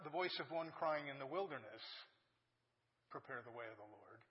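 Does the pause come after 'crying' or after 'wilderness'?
wilderness. The pause comes after 'wilderness'.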